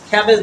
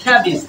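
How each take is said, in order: First: খ্যাবেজ ending in an open "-ej"; the common "-ej" ending on খ্যাবেজ; wrong pronunciation demo. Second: খ্যাবিজ ending in a short "-ij"; correct pronunciation demo. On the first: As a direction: say খ্যাবেজ as "khae-bej". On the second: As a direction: say খ্যাবিজ as "khae-bij". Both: Shown as a demonstration. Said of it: "খ্যাবেজ না, হবে কি?".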